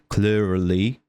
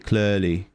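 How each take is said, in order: First: The R sound is rolled. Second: The R sound is not rolled. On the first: "instead of saying clearly" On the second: "I can't really fucking roll my R's sometimes, ... I say clearly, because it's a bit easier for me"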